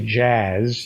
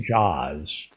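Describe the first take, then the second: First: The vowel is the flat 'a' of 'cat'. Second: The vowel is an open 'aw' sound. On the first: The speaker calls it wrong. "you don't say jazz" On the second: The speaker calls it right. "you say jaws"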